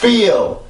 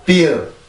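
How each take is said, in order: First: The pitch builds up and rises into the word. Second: The word is said flat, with no build-up. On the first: The speaker calls it right. "이런 식으로 소리가 올라가야 되죠" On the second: The speaker calls it wrong. "그냥 feel, feel 이런 발음이 아니라"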